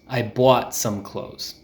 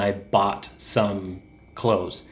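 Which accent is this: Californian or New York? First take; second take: New York; Californian. First: It is said in a New York accent. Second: It is said in a Southern Californian accent. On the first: "But in New York, you might hear more people say bought" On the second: "in California, we tend to say bought"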